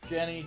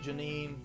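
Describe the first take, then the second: First: The name ends with an 'ee' sound. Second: The name ends with an 'een' sound. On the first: The speaker calls it wrong. "I think it's Jenny" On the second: The speaker calls it right. "We gotta go with Janine. ... I think that's probably the better pronunciation"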